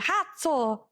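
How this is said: The word starts with a breathy h sound. "they say more into a age, like h"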